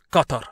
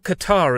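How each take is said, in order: First: It is said closer to the native pronunciation. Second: It is said to sound like 'guitar'.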